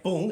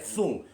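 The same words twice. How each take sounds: First: Said in the usual way. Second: Thung said with a th lisp for bung; thung, the lisped punchline; lisped word. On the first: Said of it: "it doesn't come out bung". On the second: Shown as a demonstration. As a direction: say thung, lisping the b as th. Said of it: "it comes out thung".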